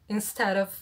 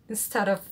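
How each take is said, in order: The two takes are said the same way.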